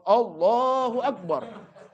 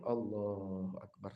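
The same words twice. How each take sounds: First: It is said loudly, in a full voice. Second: It is said quietly, barely audible. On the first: It would disturb the one leading the prayer. The speaker calls it wrong. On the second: Only the worshipper himself should hear it. The speaker calls it right. "cukup kedengaran nama inti aja ... Segitu"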